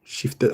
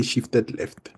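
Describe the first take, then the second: First: Said in the usual way. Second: "shifted left" drawn out slowly, each word spaced; teacher slowing right down on "shifted left"; slow and deliberate. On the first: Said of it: "I'll say shifted left". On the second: Shown as a demonstration. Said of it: "I'll say".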